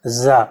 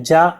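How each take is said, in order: First: "जा" said as za, with the tongue buzzing; tongue-vibrating z. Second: "जा" said as za, the tongue buzzing; correct pronunciation. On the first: Teacher repeats the borrowed sound for students: "जा" as za. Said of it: "इसमें जीभ आपकी थोड़ी सी कंपन करेगी". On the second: Teacher shows students the Arabic-Persian sound: "जा" like za. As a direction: buzz the "जा" like za. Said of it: "जा ऐसे बोलते हैं". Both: Shown as a demonstration.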